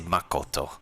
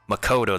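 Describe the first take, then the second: First: The name is said with a Japanese-style pronunciation. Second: The name is said with an English-style pronunciation. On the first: "they say Makoto, as in like they stress upon like the different kanji" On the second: "instead of saying like Makoto"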